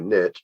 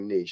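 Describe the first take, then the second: First: It is said the Tennessee way. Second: It is said the listeners' non-Tennessee way.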